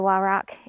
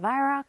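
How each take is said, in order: First: The name begins with a W sound. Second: The name begins with a V sound. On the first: This is how the speaker chooses to say it. "the W's a W to me, so I'm going to say Wyrock" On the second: This is how people overseas say it. "across the water call it a Vyrock. The W's a V"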